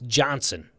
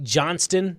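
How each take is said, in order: First: No t sound is heard before the n. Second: A t sound is heard before the n. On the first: The speaker calls it right. "It's Johnson" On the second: The speaker calls it wrong. "That T shouldn't be there"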